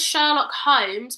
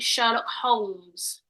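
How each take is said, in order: First: The L in Holmes is silent. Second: The L in Holmes is pronounced. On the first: This is how most people say it. "everyone says Sherlock Holmes" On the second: It follows the spelling with the letter L. "it's got an L in it. So I think it should should be"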